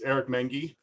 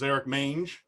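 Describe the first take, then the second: First: The surname is pronounced in its usual way. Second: The surname is pronounced in a deliberately distorted way. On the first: The speaker calls it right. "It's Eric Mengi" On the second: The speaker calls it wrong. "I'm going to mispronounce his name on pur- purpose"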